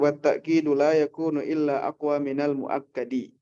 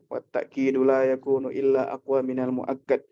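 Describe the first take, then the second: First: The final word ends with a short vowel. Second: The final word ends on a bare consonant. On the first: It is read in full for study purposes. "Cuman kalau untuk belajar kita baca semuanya" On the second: It is ordinary reading without case endings. "baca qiraah tanpa i'rab sukun aja"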